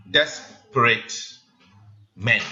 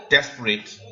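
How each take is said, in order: First: Desperate said slowly, each syllable pulled apart; syllable count. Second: Said in the usual way. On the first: Shown as a demonstration. Teacher counts syllables of desperate for class, slowly. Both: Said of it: "count with me".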